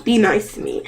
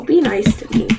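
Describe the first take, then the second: First: Be nice to me said softer and falling, politely; respectful plea. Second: Said in the usual way. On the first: Shown as a demonstration. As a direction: ask it gently and respectfully.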